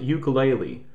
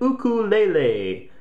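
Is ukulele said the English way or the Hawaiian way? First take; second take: English; Hawaiian. First: The word has a mainland English pronunciation. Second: The word has a Hawaiian-style pronunciation. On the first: The speaker calls it wrong. "Don't go to Hawaii and pronounce it ukulele. They hate that" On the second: The speaker calls it right. "as they say it in Hawaii"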